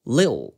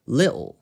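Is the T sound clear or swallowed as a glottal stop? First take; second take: glottal stop; glottal stop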